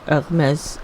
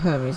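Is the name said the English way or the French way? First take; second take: French; English. First: The name is said the French way, like the brand. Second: The name is said the English way, like the god. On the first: It refers to the French fashion house. "as in the French fashion wear" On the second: It refers to the Greek god. "as in the Greek god"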